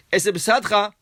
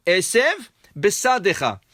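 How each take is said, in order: First: "esev besadcha" rushed so the two bets merge; "esev besadcha" swallowed as a single word; run together wrongly. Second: "Esev" and "besadecha" with a clear pause between; "Esev, besadecha" as two distinct words; separated correctly. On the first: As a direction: blur "esev besadcha" into one fast word. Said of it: "As if you read it in one fast word". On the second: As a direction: stop after "Esev", then a fresh bet on "besadecha". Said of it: "read it slowly and make a difference and a space". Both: Shown as a demonstration.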